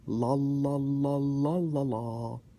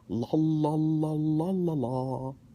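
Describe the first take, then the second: Both takes have the same delivery.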